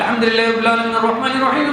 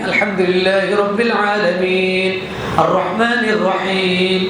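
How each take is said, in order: First: It is recited quickly without pausing between verses. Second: It is recited slowly, pausing after each verse. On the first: The speaker calls it wrong. "হুজুর তাড়াতাড়ি পড়েন" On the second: The speaker calls it right. "থেমে থেমে"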